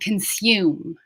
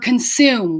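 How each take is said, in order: First: It is said with a y sound. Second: It is said without a y sound. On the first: The speaker calls it wrong. "we're not saying consume" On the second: The speaker calls it right. "for consume"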